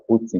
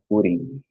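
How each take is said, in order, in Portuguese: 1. Um sotaque britânico com um T pronunciado claramente. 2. Um sotaque americano com um T suave, batido. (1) "E o britânico fala putting, né? Ele pronuncia esse T" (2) "Na pronúncia americana eles falam putting"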